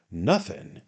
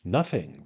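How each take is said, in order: First: A pointed, questioning repeat; questioning echo. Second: Said in the usual way. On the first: A narrator's reading. Sam echoes Job's answer, questioning echo. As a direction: echo it back as a query. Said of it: "echoed Sam". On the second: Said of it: "replied Job".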